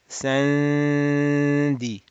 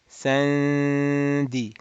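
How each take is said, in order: First: The n is hidden in a nasalized d. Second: The same.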